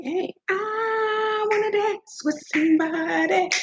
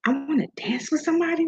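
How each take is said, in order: First: High, drawn-out sung line; sung, belt the song slowly, high-pitched; singing. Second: Said in the usual way. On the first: Retold or imitated. Reminding the host of [name]'s songs, singing high.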